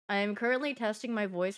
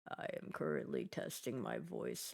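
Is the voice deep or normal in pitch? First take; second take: normal; deep. First: The voice is at its usual pitch. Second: The voice is pushed as low as possible.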